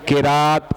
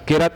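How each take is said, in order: First: The vowel after the r is long. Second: The vowel after the r is dropped. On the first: The speaker calls it right. "या तो किराअत है या किरात है" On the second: The speaker calls it wrong. "लफ्ज किरत नहीं है"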